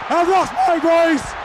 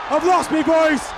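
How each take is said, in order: Both takes have the same delivery.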